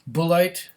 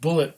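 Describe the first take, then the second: First: It sounds Germanic, ending in an 'ite' sound. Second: It sounds like the English word bullet. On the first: The speaker calls it right. "Bullite would be Dutch or German" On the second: The speaker calls it wrong. "a lot of people would just pronounce it Bullet"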